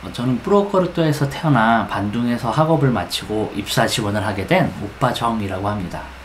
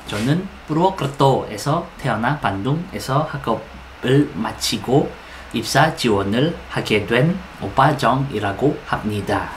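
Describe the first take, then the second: First: The syllables run together in one smooth flow. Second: Each syllable is pronounced separately and carefully. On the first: The speaker calls it right. "Di dialirin aja ya, seperti air mengalir sampai jauh" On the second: The speaker calls it wrong. "jangan contoh jangan"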